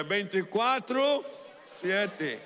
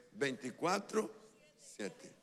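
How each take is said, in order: First: Loud, high, drawn-out declaration; full-mouthed proclamation. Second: Said in the usual way. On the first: Shown as a demonstration. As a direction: fill your mouth and proclaim it slowly. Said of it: "llene su boca y diga".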